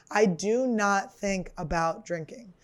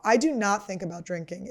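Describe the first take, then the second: First: "I do not think about drinking" slow, weight on "do not"; slow emphatic. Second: Said in the usual way. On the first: Shown as a demonstration. Repeating her sobriety claim, slow and insistent. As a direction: lean on "do not", slowly and firmly.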